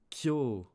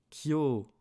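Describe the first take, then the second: The two takes are said the same way.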